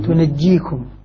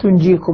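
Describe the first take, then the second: First: The j sound is doubled and held longer. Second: The j sound is single and short. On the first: This is one accepted reading of the verse. "ثقلة" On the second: This is the other accepted reading of the verse. "الباقون بالتخفيف"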